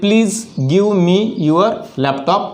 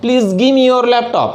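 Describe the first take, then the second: First: Slow full form. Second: "give me" run together as gimme; casual reduced gimme; contracted gimme. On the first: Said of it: "इन्हें contraction में बोलना है". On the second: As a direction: blend "give me" into one word. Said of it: "contraction में बोलना है". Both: Shown as a demonstration.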